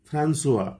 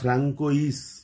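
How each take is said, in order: First: It has an s sound and ends in a vowel. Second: It has a k sound and ends in s. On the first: This is the true pronunciation. The speaker calls it right. "এর আসল উচ্চারণ হচ্ছে ফ্রান্সোয়া" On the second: This is how people commonly say it. The speaker calls it wrong. "আমরা এরকম উচ্চারণ করি"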